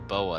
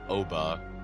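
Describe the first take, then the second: First: The name begins with a B sound. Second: The name begins with a vowel sound. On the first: The speaker calls it wrong. "I don't think that's how it's pronounced" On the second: The speaker calls it right. "I think it's Oba"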